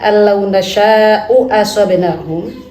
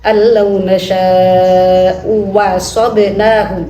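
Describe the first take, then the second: First: The second hamza is a glottal stop. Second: The second hamza is replaced by a w.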